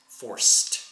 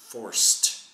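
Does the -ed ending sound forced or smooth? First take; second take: smooth; smooth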